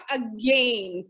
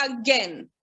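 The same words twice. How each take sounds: First: "again" as a slow, low a-gain; wrong pronunciation. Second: "again" as a-gen, like pen; right pronunciation. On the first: Teacher showing the mistake, again slowly said as a-gain. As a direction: rhyme again with rain, drawn out. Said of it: "It's not again". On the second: Teacher modelling it in a sentence, again said as a-gen. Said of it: "let's frame one sentence". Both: Shown as a demonstration.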